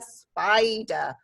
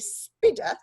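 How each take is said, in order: First: The i is a long vowel sound. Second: The i is a short vowel sound. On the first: The speaker calls it right. "our I sound in sp, I'd, uh, spider" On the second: The speaker calls it wrong. "What's a spidder?"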